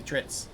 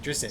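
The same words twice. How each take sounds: First: "Drizzt" said as DRITS; "Drizzt" in one syllable, ending in ts. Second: "Drizzt" said as DRIZ-it; "Drizzt" in two syllables. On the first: Shown as a demonstration. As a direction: rhyme "Drizzt" with "bits". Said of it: "it's supposed to be Drizzt". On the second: Retold or imitated. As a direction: add a short vowel inside "Drizzt". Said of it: "didn't know how to say Drizzt name".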